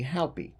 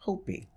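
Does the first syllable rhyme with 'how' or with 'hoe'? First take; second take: how; hoe. First: The first syllable rhymes with 'how'. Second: The first syllable rhymes with 'hoe'. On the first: The speaker calls it wrong. "the pronunciation I looked up said it was pronounced H-O-W-P-I" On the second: The speaker calls it right. "it's actually Hopi. So I'm pronouncing it correct today"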